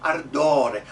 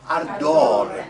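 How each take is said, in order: First: Loud "Ardore" with trilled r; projected "Ardore", r slightly overdone; over-rolled R. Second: Very loud "Ardore" with one flick of r; projected "Ardore", long o, light r; single-tap R. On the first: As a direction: roll the R in "Ardore" a little too much. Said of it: "I rolled a little bit too much on the R". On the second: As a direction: tap the R just once in "Ardore". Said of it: "It's just one". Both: Shown as a demonstration.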